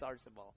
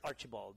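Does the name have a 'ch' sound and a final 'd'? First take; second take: no; yes. First: It has no 'ch' sound and no final 'd'. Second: It has a 'ch' sound and ends in 'd'. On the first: The speaker calls it right. "it's Arcibal" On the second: The speaker calls it wrong. "they add the H and the D"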